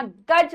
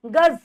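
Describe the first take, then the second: First: गज ending in a plain j; plain j sound. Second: गज ending in a buzzed z, as 'gaz'; z sound. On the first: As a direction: close गज on a hard j. (गज के अंत में सादा ज) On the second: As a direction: let गज end on z. (गज के अंत में ज़) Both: Shown as a demonstration. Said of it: "उच्चारण में भी हल्का सा अंतर".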